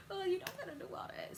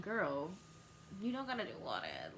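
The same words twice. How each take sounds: First: High, fast sarcastic taunt; mocking repeat. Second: Fast whispered aside; mock whisper. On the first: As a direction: throw it back mockingly. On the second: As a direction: whisper it under your breath. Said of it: "and I was like".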